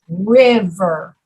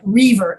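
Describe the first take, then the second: First: The first vowel is a short sound. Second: The first vowel is a long 'ee' sound. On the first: The speaker calls it right. "the so- sound in river is very short" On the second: The speaker calls it wrong. "it's not river"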